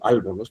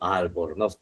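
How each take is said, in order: First: The stress is on the first syllable. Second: The stress is on the last syllable. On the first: The speaker calls it wrong. "si yo le pusiese la tilde en la primera sílaba, ¿ya? Que sería al" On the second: The speaker calls it right. "se escucha mejor ... se acentúa en nos"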